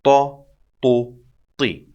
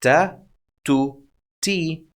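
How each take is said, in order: First: Heavy, dark t in "Ta, tu, ti"; emphatic t. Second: Light front t in "Ta, tu, ti". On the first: Teacher compares it to the light letter, emphatic t. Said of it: "Compare it to the emphatic sound". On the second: Teacher introduces a new set, very light t. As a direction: say "Ta, tu, ti" with a plain, non-emphatic t. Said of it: "This is a very light letter". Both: Shown as a demonstration.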